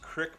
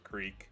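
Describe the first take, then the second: First: The vowel is a short 'i' sound. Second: The vowel is a long 'ee' sound. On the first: Other people say it this way. "I've heard other people use Crick before. I have never once in my life used Crick ever" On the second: The speaker always says it this way. "I've always referred to it as a creek"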